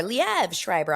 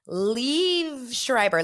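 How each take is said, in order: First: "Liev" said as "lee-ev" in two beats; second Liev take. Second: "Liev" said as "leev", stretched slowly; first Liev take. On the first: Telling viewers she'll try both ways, second "Liev" as "lee-ev". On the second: Telling viewers she'll try both ways, first "Liev" as "leev". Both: Shown as a demonstration. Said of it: "I'm gonna say both".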